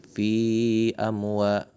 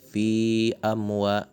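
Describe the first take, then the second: No difference in how they are said.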